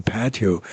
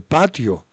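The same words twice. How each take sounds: First: "patio" softer, with English vowels; English pronunciation. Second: Said in the usual way. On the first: Retold or imitated. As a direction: say "patio" quietly as an American would, PAT-ee-oh. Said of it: "Y te ponen patio". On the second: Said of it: "te ponen patio".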